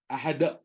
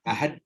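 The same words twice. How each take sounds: First: The final d is released as a strong da. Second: The final d gets only a light bounce. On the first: The speaker calls it wrong. "bunyi da" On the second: The speaker calls it right. "Lantun huruf tu je"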